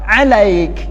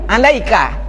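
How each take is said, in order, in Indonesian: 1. Kata ini berakhir dengan konsonan, vokalnya dihilangkan. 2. Kata ini berakhir dengan vokal pendek.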